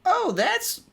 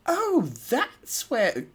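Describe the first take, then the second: First: A high, lightly Southern take; an accidental Southern twang on the line; southern accent slip. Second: A slow, high, lightly British take; an accidental British lilt; British accent slip. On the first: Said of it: "it keeps going in a friggin' southern accent". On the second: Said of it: "why is it British?". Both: Shown as a demonstration.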